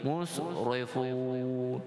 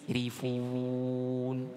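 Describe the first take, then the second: First: The consonants are said heavy and thick. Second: The consonants are said light and thin. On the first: The speaker calls it wrong. "yang kita baca tebal" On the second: The speaker calls it right. "di sini ra kita baca dengan nipis"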